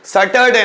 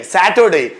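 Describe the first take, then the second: First: सैटरडे said "suh-tur-day"; wrong first vowel. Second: सैटरडे said "SAT-ur-day" with an open "a"; correct first vowel. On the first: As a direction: mispronounce सैटरडे with a short "uh" in the first syllable. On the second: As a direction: model सैटरडे with "a" as in cat. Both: Shown as a demonstration. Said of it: "सैटरडे नहीं".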